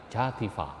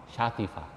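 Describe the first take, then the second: No difference in how they are said.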